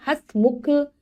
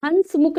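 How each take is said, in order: First: "हंसमुख" without a full N, has-mukh; correct pronunciation. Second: "हंसमुख" with a full N, hans-muk; mispronounced word. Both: Shown as a demonstration. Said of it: "हंसमुख नहीं".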